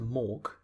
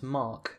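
First: The vowel sounds like 'or' in fork. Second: The vowel sounds like 'ar' in car. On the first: "unless you pronounce Mark as Mork" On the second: "unless you pronounce Mark as Mork"

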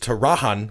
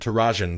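First: The J is pronounced like an H sound. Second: The J is pronounced like a J sound. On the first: "like the J was the H sound" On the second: "the guy said Tarajan"

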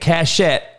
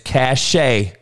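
First: The word ends with a pronounced T sound. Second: The word ends in a vowel without T. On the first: The speaker calls it wrong. "It ain't cachet" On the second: The speaker calls it right. "You don't pronounce the fucking T on the shit"

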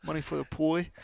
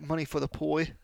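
First: The last word is said childishly as 'poi'. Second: The same.

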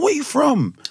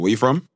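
First: It is said in a warm, flirty tone. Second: It is said in a flat, businesslike tone. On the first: The speaker is romantically interested in the person. "trying to talk to somebody" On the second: The question is asked in a professional setting. "it's like very formal and my tone"

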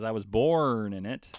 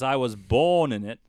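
First: It is said in a rhotic American accent. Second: It is said in a non-rhotic British accent.

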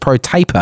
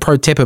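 First: The second word has a long 'a' vowel. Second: The second word has a short 'a' vowel. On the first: The speaker calls it right. "but apparently it's pro taper" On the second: The speaker calls it wrong. "I've always pronounced it pro tapper"

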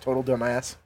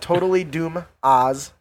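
First: The name is said fast, with words run together. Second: The name is said at a normal, careful pace.

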